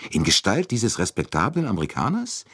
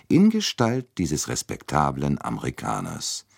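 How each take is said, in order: First: Higher pitch, rising to a question on "Amerikaners"; sceptical question. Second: Measured statement, falling to a close on "Amerikaners"; firm confirmation. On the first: Friend doubting the evil in the respectable American, questioning. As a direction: query "Amerikaners" with a lifted, doubting end. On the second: Poirot answering his doubting friend, firmly confirming. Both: Acted.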